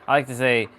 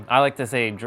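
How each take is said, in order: Both takes have the same delivery.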